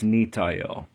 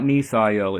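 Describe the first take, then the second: First: The middle consonant is a plain 't' sound. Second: The middle consonant is a 'th' sound. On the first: The speaker calls it right. "it's really Nitael" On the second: The speaker calls it wrong. "It's not Nithael"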